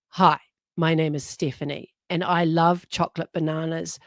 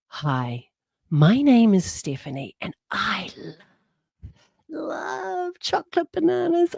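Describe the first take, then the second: First: It sounds flat, sleepy and bored. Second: It sounds lively, excited and passionate.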